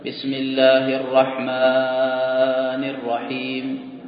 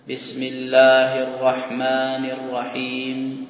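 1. حروف المد تُمدّ إلى أربع حركات. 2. حروف المد تُمدّ حركتين. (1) "يزيدون على المد الطبيعي ... إلى أربع حركات" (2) "عند الوصل مد طبيعي بمقدار حركتين"

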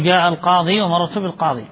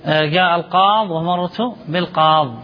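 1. تنتهي الكلمة بصوت 'ee' الطويل في آخرها. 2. تنتهي الكلمة بدون صوت 'ee' في آخرها. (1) "فالأفصح في الرفع والجر الوقف عليه بإثبات الياء" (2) "ويجوز حذفها"

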